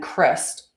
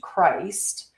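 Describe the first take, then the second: First: The vowel is short, as in Christmas. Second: The vowel is long, as in the usual word. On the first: This is the original true name. The speaker calls it right. "is how you would pronounce it with an with a soft I, like Christmas or Christopher" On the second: This is the later distorted form. The speaker calls it wrong. "before it was distorted into Christ"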